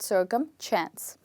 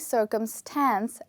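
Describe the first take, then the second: First: The last part is said as 'chance'. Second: The last part is said as 'stance'. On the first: The speaker calls it wrong. "A lot of English learners tend to call it circumchance, which is wrong" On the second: The speaker calls it right. "We don't have any C H in the word, we only have S"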